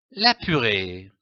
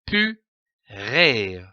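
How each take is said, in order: First: Said in the usual way. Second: PU, then RÉ, with a clear pause between; syllable by syllable. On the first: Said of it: "donne le mot". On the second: Shown as a demonstration. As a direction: break purée into two detached syllables. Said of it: "L'association de ces deux syllabes donne le mot".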